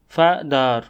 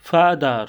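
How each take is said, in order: First: "father" in two beats, fa, ther; split into syllables. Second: Said in the usual way. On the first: Shown as a demonstration. Teacher showing learners the two syllables, "father" split in two. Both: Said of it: "each of these words has two syllables".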